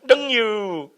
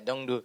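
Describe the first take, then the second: First: The second syllable starts with a Y sound. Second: The second syllable starts with a D sound. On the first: It follows how local people say it. "but to them it's Y U" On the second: It follows the written spelling. "It was spelled Dongdu"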